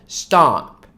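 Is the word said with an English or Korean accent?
English. It is said the English way, ending in p. "영어식 정확한 발음은 stop"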